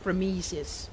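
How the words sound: The name is said with English-sounding vowels. "with a bit of a Anglo-Saxon lilt to it"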